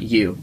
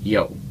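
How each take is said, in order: First: It sounds like the English word you. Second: It sounds like yo, with an o sound. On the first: The speaker calls it wrong. "It's not you" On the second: The speaker calls it right. "It's yo"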